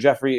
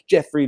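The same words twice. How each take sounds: First: The name is said in a plain, neutral tone. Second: The name is said in a taunting, mocking tone. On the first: The name is used only as a legal formality. "we're booking you under Jeffrey, it was a one-off" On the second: The name is used to harass the person. "were they doing it like Jeffrey, Jeffrey, pointing their fingers at the person?"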